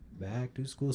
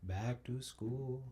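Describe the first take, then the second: First: Said in the usual way. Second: Slow, soft, dragged-out dread; slow drawn-out. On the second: Shown as a demonstration. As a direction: drag it out quietly like a sigh. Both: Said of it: "let me go back to school".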